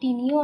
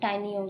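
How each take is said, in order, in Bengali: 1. প্রথম স্বরধ্বনিটি 'ee'-এর মতো শোনায়। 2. প্রথম স্বরধ্বনিটি 'eye'-এর মতো শোনায়। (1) "টিনিও অনেক সময় উচ্চারণ করা হয়" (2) "টাইনিও উচ্চারণ করা হয়"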